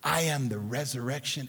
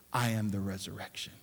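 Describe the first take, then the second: First: Measured emphasis; deliberate statement. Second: I am the resurrection, said low, soft and quick, tossed off; throwaway line. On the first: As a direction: state it as the real claim. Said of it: "He said this". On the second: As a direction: rush it past as if it hardly counts. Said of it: "He didn't just say ... He said this". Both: Shown as a demonstration.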